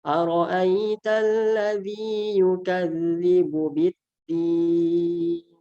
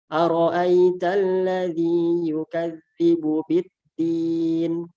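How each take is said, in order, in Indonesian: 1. Vokal panjang di akhir ditahan sangat lama. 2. Vokal panjang di akhir ditahan sebentar. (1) "enam harokat atau yang paling panjang" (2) "membaca dengan dua harokat"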